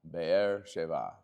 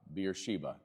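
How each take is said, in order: First: It is said with a Hebrew pronunciation. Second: It is said with an English pronunciation.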